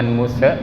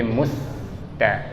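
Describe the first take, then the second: First: "muse" with a stray vowel bounced after the s; bouncing sin error. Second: "musta" with the s held, then straight into t; unbouncing sin. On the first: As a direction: let the s in "muse" bounce into an extra "e". ("muse" dengan huruf sin yang memantul) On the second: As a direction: hold the s in "musta" without any added vowel. ("musta" dengan sin ditahan, tidak memantul) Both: Shown as a demonstration. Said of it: "jangan muse tapi musta".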